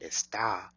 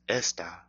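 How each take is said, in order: First: The stress is on the last syllable. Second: The stress is on the first syllable. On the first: It means you are, he is, or she is. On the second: It means this.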